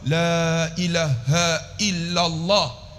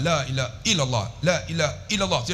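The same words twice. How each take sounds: First: "la ilaha illallah" very slow, every long vowel held; careful, drawn-out. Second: "la ilaha illallah" run through short, vowels not held; careless quick zikir. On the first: Preacher modelling proper zikir, "la ilaha illallah" slow and careful. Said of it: "Sebut elok". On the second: Preacher showing how many people say it, "la ilaha illallah" short and careless. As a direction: rattle off "la ilaha illallah" without lengthening. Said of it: "Banyak kita". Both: Shown as a demonstration.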